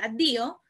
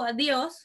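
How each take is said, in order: First: "adio" with no final s, ending on an open o; Italian addio. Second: "adiós" with a full final s and stress on the ó, as in Spanish. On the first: Teacher contrasting Spanish with Italian, says Italian "adio" with no s. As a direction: drop the s in "adio", Italian style. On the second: Teacher contrasting Spanish with Italian, says "adiós" the Spanish way. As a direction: say "adiós" the Spanish way, ending on a clear s. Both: Shown as a demonstration. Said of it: "o sea, adio".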